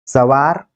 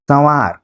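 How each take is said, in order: First: सवार with a plain first a; oral vowel. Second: संवार with first vowel through the nose; nasalised vowel. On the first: Teacher reading a minimal pair, सवार with oral vowel. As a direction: keep सवार free of nasalisation. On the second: Teacher reading a minimal pair, संवार with nasalised vowel. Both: Shown as a demonstration. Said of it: "जो अनुनासिकता यहाँ पर है".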